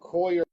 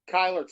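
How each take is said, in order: First: The name begins with a 'coll' sound. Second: The name begins with a 'ky' sound. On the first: The speaker calls it wrong. "Am I pronouncing that correctly?" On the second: The speaker calls it right. "it's pronounced Kyler"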